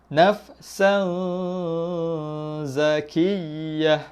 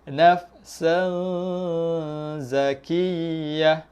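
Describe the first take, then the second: The two takes are said the same way.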